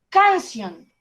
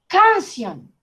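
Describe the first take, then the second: No difference in how they are said.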